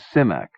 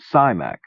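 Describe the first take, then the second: First: The first vowel is a short i, like 'sit'. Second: The first vowel is a long i, like 'eye'. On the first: The speaker calls it right. "the I is short" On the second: The speaker calls it wrong. "I assumed the I in his last name was long"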